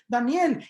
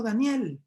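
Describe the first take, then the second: First: Higher, louder call of the name "Daniel". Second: "Daniel" said with a touch of sadness and a falling end; a mildly sorrowful "Daniel", hope fading; sad voice. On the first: King Darío calling for Daniel at the den, a raised call. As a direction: call "Daniel" out across the distance. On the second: King Darío calling Daniel at the den, mildly sad. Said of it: "con voz triste le dijo". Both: Acted.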